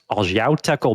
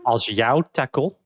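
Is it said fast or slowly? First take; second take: fast; slowly. First: It is said at normal, quick speed. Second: It is said slowly and carefully.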